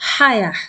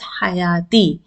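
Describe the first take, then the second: First: The word ends with a plain 'ah' sound. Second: The word ends with a 'ti' sound. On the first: The speaker stops after this word. "So you will stop as ah sound, as ah sound at the end" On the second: The speaker continues past this word. "If you are continuing, you will pronounce it as hayati"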